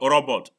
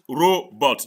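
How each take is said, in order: First: "robot" with a short first o, rob-ot; mispronunciation. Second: "robot" with a long first o, ROH-bot; correct pronunciation. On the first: Teacher mimics student's error, short o in "robot". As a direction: say "robot" the wrong way, as RAW-bot. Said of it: "not robot". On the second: Teacher corrects student's word, ROH-bot in "robot". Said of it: "It is pronounced robot". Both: Shown as a demonstration.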